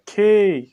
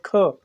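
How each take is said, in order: First: "खे" with a long, falling ay vowel; corrected letter name. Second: "ख" as aspirated k with a short uh; common short reading. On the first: Teacher corrects the letter's name, long drawn-out "खे". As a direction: say "खे" drawn out, not "ख". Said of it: "लेकिन ये है खे". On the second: Teacher shows the common Urdu reading, short "ख". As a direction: say "ख" briefly, with no ay vowel. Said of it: "हम उमूमन उर्दू में इसको पढ़ते हैं ख". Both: Shown as a demonstration.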